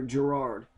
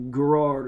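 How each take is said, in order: First: Girard with a soft J sound, stress on the second syllable; Girard said juh-RARD. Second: Garrard with a hard G, stress on the second syllable; Garrard said GUH-RARD. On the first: Correcting the county name, Girard with a soft J. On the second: Naming the Kentucky county, Garrard with a hard G. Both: Shown as a demonstration. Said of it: "or Girard".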